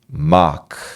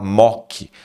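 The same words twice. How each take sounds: First: The vowel is an open unrounded a sound. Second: The vowel is a rounded open o sound. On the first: The speaker calls it right. "É ma. Ma" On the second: The speaker calls it wrong. "Cuidado para não falar mock. Não é mock. Não é mó"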